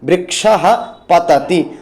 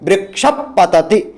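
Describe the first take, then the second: First: A breathy h sound comes before patati. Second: A puff between closed lips comes before patati. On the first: "एक बार आप ऐसा भी बोल सकते हैं" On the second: "उपधमानीय को बोलना चाहते हैं तब आप बोलेंगे"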